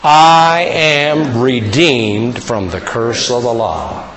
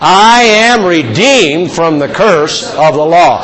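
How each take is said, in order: First: It is said at a normal volume. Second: It is said more loudly.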